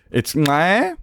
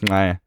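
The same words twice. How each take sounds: First: "ngai" said as one syllable, starting on the ng sound; "ngai" sounded ng plus ai in a single beat. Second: "ngai" opening with ng and gliding into ai; a single-syllable "ngai" beginning on ng; "ngai" as ng-ai, all in one beat. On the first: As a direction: start "ngai" with the ng of "sing", then "ai". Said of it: "That's how it's pronounced". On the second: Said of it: "It's pronounced". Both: Shown as a demonstration.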